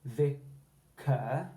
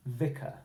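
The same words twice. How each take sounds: First: "vicar" as vi-CUR, split slowly, full rising er; full ER ending. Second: "vicar" as VI-cuh, joined up, weak uh ending; schwa ending. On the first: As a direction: draw out the second syllable of "vicar" as cur. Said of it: "we're not going to say vicar". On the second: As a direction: say "vicar" with stress on VI and a short schwa. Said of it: "we say vicar". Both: Shown as a demonstration.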